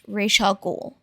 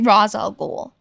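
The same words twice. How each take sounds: First: The first word sounds like 'Raish'. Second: The first word sounds like 'Roz'. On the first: The speaker calls it right. "it's always been pronounced Ra's al Ghul" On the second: The speaker calls it wrong. "They keep saying Ra's al Ghul, ... I don't know why they're saying Roz"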